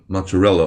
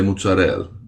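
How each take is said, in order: First: It is said with an ordinary American pronunciation. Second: It is said with an Italian pronunciation.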